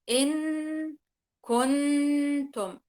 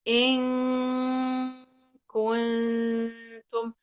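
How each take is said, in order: First: The N is pronounced clearly and fully. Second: The N is hidden into a nasal sound. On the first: The speaker calls it wrong. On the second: The speaker calls it right.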